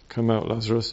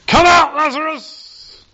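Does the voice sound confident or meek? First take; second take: meek; confident. First: It is said quietly and meekly, with hesitation. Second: It is said loudly and with confidence. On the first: The caller doubts it will work. The speaker calls it wrong. "He didn't call out meekly, sort of with a broken, stuttering voice" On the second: The caller is sure it will work. The speaker calls it right. "Can you hear the confidence?"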